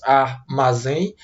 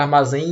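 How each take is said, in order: First: "armazém" slowly as ar, ma, zém; slow, lower-pitched syllable-by-syllable "armazém"; split into syllables. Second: Said in the usual way. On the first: Shown as a demonstration. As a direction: break "armazém" into three separate syllables. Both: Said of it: "Divida a palavra armazém em três sílabas".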